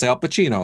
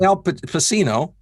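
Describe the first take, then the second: First: "Pacino" with a ch sound for the c; Italian ch pronunciation. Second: "Pacino" with an s sound for the c; soft-c mispronunciation. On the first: Explaining the Italian spelling rule, "Pacino" as pa-CHEE-no. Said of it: "It's Al Pacino". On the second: Showing how not to read Italian, "Pacino" as pa-SEE-no. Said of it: "it's not". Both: Shown as a demonstration.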